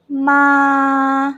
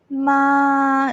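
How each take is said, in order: First: The pitch stays level and steady. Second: The pitch stays level and steady.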